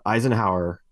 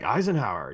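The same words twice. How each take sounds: First: Said in the usual way. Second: Put-on Eisenhower said with a light French accent; mildly imitating a Frenchman saying Eisenhower, French accent; a hint of a French accent on Eisenhower. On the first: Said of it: "but he says it with this accent". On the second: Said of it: "he says it with this accent, and it sounded French".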